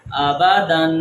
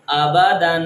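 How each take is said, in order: First: آبادن ending clearly on n; nunation reading. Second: آبادن with the final n; nunation reading. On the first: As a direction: sound the nun at the end of آبادن. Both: Shown as a demonstration. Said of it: "ہم وہاں پر نون کی آواز نکالیں گے".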